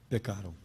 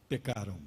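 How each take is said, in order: The two takes are said the same way.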